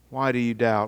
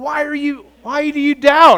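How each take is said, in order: First: The question is asked in a comforting tone. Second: The question is asked in an irritated tone. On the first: The asker gently reassures the listeners. The speaker calls it right. "Jesus' comforting words to them" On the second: The asker is annoyed at the listeners' doubt. The speaker calls it wrong. "I don't think Jesus is irritated when He asks that"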